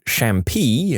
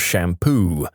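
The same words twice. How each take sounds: First: "shampoo" ending in "pee"; mistaken ending. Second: Said in the usual way. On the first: Shown as a demonstration. Resident worker's paperwork slip, "shampoo" misread as "shampee". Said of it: "accidentally wrote". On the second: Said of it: "instead of".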